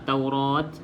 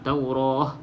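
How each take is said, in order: First: The word ends with a t sound. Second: The word ends with an h sound. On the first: The speaker calls it wrong. "Jangan berhenti bunyi ta" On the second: The speaker calls it right. "kita berhenti bunyi ha"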